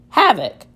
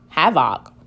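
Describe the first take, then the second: First: The second vowel is a reduced schwa. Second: The second vowel is a full short o. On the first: The speaker calls it right. "Let me try it with the schwa sound" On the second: The speaker calls it wrong. "Let's see what happens if I make this a sh short sound"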